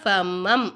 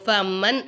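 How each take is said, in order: First: The word ends with an m sound. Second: The word ends with an n sound. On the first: The speaker calls it right. "நூனை சாக்கின மீமா மாற்றி நம்ம ஓதணும்" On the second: The speaker calls it wrong. "சொல்லாமல்"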